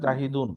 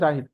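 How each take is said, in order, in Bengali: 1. শব্দটি পূর্ণ -un দিয়ে শেষ হয়। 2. শব্দটি -un ছাড়া শেষ হয়। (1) "নর্মালি জাহিদুন" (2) "থামলে জাহিদ ঠিক আছে"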